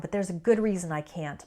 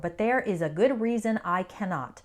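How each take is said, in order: First: There is and cannot are contracted. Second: There is and cannot are said in full. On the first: The speaker calls it right. "more naturally, we'd say it like this" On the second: The speaker calls it wrong. "That's without any contractions"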